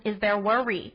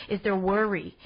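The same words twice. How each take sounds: First: "worry" said again plainly, with a laugh; retry "Is there worry?" without the accent, giggling; laughing redo. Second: "worry" slipping into a New York accent; a slight New York twang on "worry"; accidental New York accent. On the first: Podcaster repeats "Is there worry?" to listeners, laughing at herself. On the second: Podcaster catches herself saying "worry" in a New York accent. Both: Real, not acted. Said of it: "Did I just sound like I had a New York accent?".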